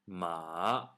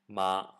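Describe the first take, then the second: First: The pitch starts low, dips, then rises. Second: The pitch stays high and level. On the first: "The third tone, ... it starts off low, it dips, and then it rises" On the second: "The first tone, ... This tone starts up high and level"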